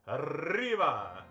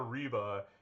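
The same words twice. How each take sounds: First: The r is a strongly rolled trill. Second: The r is a plain, untrilled sound. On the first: The speaker calls it right. "it's arriba" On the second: The speaker calls it wrong. "it's not arriba"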